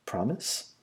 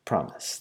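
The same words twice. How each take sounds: First: Soft PROMISE with rising end; softly seeking a promise; questioning promise. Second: Soft, settled promise; answering promise. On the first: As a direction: ask "Promise?" quietly, lifting the end. Asking, then answered with same word. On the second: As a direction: PROMISE as a soft statement, falling. Answering the same word back. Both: A narrator's reading.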